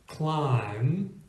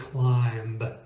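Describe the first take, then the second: First: The word ends in m with no b sound. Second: The word ends with an audible b sound. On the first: The speaker calls it right. "M B appears at the end of the word, and the B is silent" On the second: The speaker calls it wrong. "We do not say climb"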